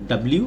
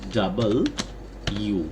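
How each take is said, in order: First: It is said short, like 'dablu'. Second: It is said in full, like 'double you'. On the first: The speaker calls it wrong. "আমরা সবাই মোটামুটি ডাব্লিউ উচ্চারণ করে থাকি" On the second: The speaker calls it right. "এটার উচ্চারণ হবে আসলে ডাবল ইউ"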